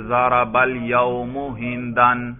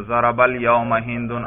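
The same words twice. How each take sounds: First: الیوم ending in -u, ہندن ending in -an; student's wrong case endings. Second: الیوم ending in -a, ہندن ending in -un; correct case endings. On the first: Acted. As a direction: slowly say الیوم as "al-yaumu" and ہندن as "hindan". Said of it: "ایک طالب علم اشکال کرتا ہے، وہ کہتا ہے". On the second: Shown as a demonstration. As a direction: slowly say الیوم as "al-yauma" and ہندن as "hindun". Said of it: "ہر اعراب پر آپ تلفظ کر رہے ہیں".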